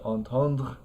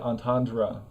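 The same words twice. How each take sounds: First: It ends in a uvular R, no extra syllable. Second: It ends in an English R with its own syllable. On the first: "French has a word entendre that just ends in like this uh, uvular R sound" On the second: "But in English, we just say entendre"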